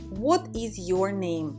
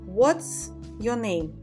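First: The verb is said as a full word. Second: The verb is shortened to a short s.

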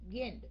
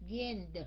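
First: The final sound is pronounced only faintly. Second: The final sound is pronounced strongly and clearly. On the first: "Cuối cùng mình chỉ đánh cái âm rất là nhỏ ra thôi" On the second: "nói rõ ra như vậy"

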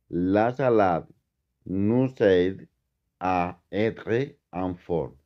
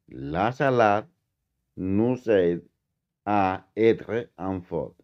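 No difference in how they are said.

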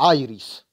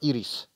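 First: The name is pronounced the English way. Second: The name is pronounced the Polish way. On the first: The speaker calls it wrong. "a nie Iris. Angielski dubbing, chuj ci w dupę" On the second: The speaker calls it right. "Tak, Iris"

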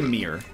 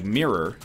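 First: The word is said in a relaxed everyday way. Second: The word is said with careful, clear enunciation. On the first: "Because I say mirror" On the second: "When I try to enunciate, it's like mirror"

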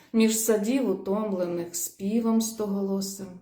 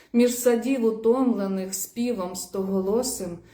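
Both takes have the same delivery.

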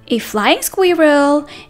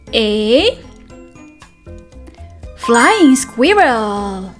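First: It is read at a faster pace. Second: It is read at a slower pace.

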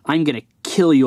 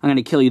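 First: It sounds furious and super ticked off. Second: It sounds mildly mad.

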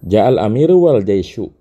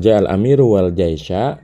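First: The last word ends with a 'u' vowel. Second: The last word ends with an 'a' vowel. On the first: The leader and the army both came. "cocoknya kita bacanya ... pakai waw ataf" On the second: The leader and the army came together at once. "dengan waw ma'iyah"

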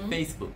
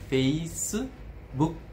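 First: The word ends on k with no vowel. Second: An extra u vowel follows the final k. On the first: "em inglês é Facebook. Não tem nenhuma vogal depois do k" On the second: "os japoneses têm a tendência de preencher com u. Então fica Facebook"

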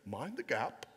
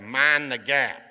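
First: It is spoken in a British accent. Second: It is spoken in a Southern American accent. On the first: "that's not how they say it in Britain. They say" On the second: "I'm from the South, so I say"

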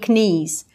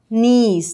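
First: It starts with a k sound before n. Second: It starts with an n sound, no k. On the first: The speaker calls it wrong. "никакие не knees" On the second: The speaker calls it right. "произносится только «н»"

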